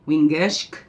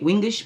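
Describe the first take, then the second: First: The word ends with a final k sound. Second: The word ends without a final k sound. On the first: The speaker calls it right. "it's actually Wingishk" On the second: The speaker calls it wrong. "I say Wingish"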